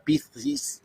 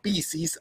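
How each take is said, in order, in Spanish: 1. Se dice con un acento castellano de España. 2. Se dice con un acento argentino. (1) "a la manera muy castiza, muy, muy española" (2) "lo digo a lo argentino"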